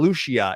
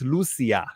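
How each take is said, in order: First: The middle consonant is a ch sound. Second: The middle consonant is an s sound. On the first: The speaker calls it wrong. "It's not Lucia" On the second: The speaker calls it right. "It's with a S sound in the middle"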